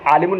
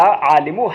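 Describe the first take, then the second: First: आलिमुन with an -un ending; wrong tanween ending. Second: आलिमु ending in short u, no final n; without tanween. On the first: Teacher warning students off this reading, आलिमुन with final n. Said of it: "नहीं पढ़ना क्योंकि इस पर अलिफ लाम दाखिल". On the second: Teacher showing students the reading after alif lam, no tanween on आलिमु. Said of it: "आलिमुन नहीं पढ़ना क्योंकि इस पर अलिफ लाम". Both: Shown as a demonstration.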